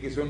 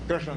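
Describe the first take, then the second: First: Plain k, no r, ending in sun. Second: Starts with a kr cluster, ending in shna. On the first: This is how most people say it. The speaker calls it wrong. "किसुन बोलेंगे" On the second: This is the pure pronunciation. The speaker calls it right. "शुद्ध उच्चारण"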